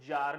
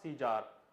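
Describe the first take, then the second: First: It is one syllable beginning with z. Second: It adds a see syllable before zar. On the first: The speaker calls it right. "the pronunciation is जार" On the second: The speaker calls it wrong. "Not सीजार"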